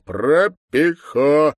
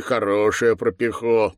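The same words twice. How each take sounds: First: "Пропихо" very slow, high and loud, syllable by syllable; emphatic syllables. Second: Said in the usual way. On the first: Acted. Deputy repeating "Пропихо" for the slow to understand, loudly syllable by syllable. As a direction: spell out "Пропихо" in stretched, forceful syllables.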